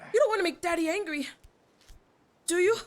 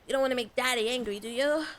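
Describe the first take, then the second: First: It is said in an imitation of Deku's voice. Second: It is said in the speaker's normal voice.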